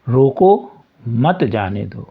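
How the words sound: The pause comes after the first word.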